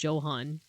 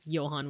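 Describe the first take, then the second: First: The name begins with a J sound. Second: The name begins with a Y sound. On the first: "no, pronounce it Johan" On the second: "supposed to be pronounced like Johann with like a Y sound"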